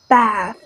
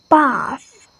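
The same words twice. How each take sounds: First: American "bath" with the a of cat; "bath" with a flat American a vowel; American pronunciation. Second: British "Bath" with a long ah; "Bath" with the vowel open and back; British pronunciation. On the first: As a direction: say "bath" with a front "a", never ah. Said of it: "But Americans say". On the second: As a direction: say "Bath" as "bahth". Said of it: "the British pronounces like". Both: Shown as a demonstration.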